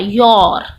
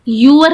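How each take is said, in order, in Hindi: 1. यह एक अक्षर में बोला जाता है, जैसे 'yor'। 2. यह दो अक्षरों में बोला जाता है, जैसे 'yoo-er'। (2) "यूअर नहीं होता"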